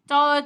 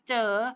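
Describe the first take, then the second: First: The word is said on a level mid tone. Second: The word is said on a rising tone. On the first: "คำว่าเจอ" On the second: "ไม่จัตวา"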